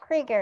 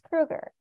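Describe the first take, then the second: First: The first vowel sounds like 'ee'. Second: The first vowel sounds like 'oo'. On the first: The speaker calls it wrong. "it's not Krieger" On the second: The speaker calls it right. "it's Krueger"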